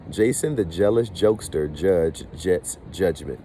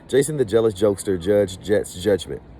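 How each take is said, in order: First: It is said at a normal, unhurried pace. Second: It is said quickly, at a fast pace. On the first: "we're going to say it one time" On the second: "let me try it again fast"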